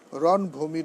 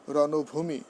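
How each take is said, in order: First: রণভূমি as ron-bhumi, no vowel after n; wrong pronunciation. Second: রণভূমি as rono-bhumi, linking o sounded; correct pronunciation. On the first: Teacher showing students what to avoid, wrong pronunciation. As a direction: say রণভূমি with n straight into bh. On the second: Teacher correcting the compound for students, correct pronunciation. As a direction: say রণভূমি with an o after n. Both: Shown as a demonstration. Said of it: "নয়".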